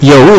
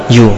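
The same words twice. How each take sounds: First: "Yau" sounded out as written, ya-u; spell-read "Yau" the Indonesian way; read as spelt. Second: "You" said the English way, like yu; English reading. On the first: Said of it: "dibaca apa?". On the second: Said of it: "Yau dibaca apa?". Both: Shown as a demonstration.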